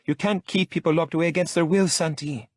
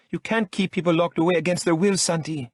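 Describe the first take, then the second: First: Much higher, louder indignant woman; Lola protesting. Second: Much higher, louder indignant woman; woman protesting being locked up; Lola protesting. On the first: Lola's protest remembered. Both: A narrator's reading. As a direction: protest with outrage.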